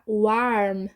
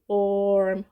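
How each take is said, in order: First: The vowel sounds like an open a. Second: The vowel sounds like or, rhyming with storm. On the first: The speaker calls it wrong. "Não vai ficar warm... Não é som de a" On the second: The speaker calls it right. "é som de warm"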